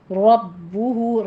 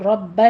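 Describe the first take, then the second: First: رَبُّهُ with a heavy را, doubled با and rounded lips; correct رَبُّهُ. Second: رَبَّ said with a flat a, lips unrounded; wrong version. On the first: Teacher models the right رَبُّهُ, slow and heavy. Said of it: "را مفخم پڑھی جائے گی، ہونٹ گول". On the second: Teacher shows the mistake رَبَّ to avoid. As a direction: say رَبَّ the wrong way, open-mouthed. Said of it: "رَبَّ نہیں کہنا". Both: Shown as a demonstration.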